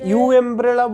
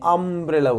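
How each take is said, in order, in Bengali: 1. শব্দটি 'you' ধ্বনি দিয়ে শুরু হয়। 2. শব্দটি 'uh' ধ্বনি দিয়ে শুরু হয়। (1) "তখন কি ইউ এমব্রেলা বলছি, ইউ এমব্রেলা বলছি না" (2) "তা আমব্রেলা বলছি, আ বলছি"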